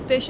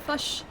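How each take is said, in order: First: The vowel is a plain short i sound. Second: The vowel is centralized, sounding close to fush. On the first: "Alex says fish instead of" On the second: "which is a New Zealand uh, word"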